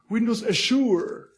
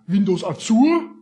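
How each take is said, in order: First: It is said with a British accent. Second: It is said with a German accent. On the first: "the UK guys say" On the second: "If you listen to a German guy"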